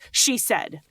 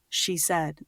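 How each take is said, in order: First: It is spoken with more force and punch. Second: It is spoken softly and gently.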